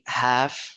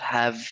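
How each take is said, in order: First: The word ends with a voiceless f sound. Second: The word ends with a voiced v sound. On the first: The speaker calls it right. "native speakers say have with a voiceless f sound" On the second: The speaker calls it wrong. "not have"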